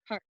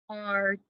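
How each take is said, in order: First: Said in the usual way. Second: "Cart" split into k, ar, t with gaps; tapped out sounds. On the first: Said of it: "let's tap it out". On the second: Shown as a demonstration. Teacher tapping out the word once more, segmented "Cart". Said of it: "One more time".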